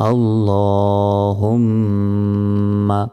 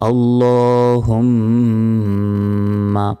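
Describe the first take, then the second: No difference in how they are said.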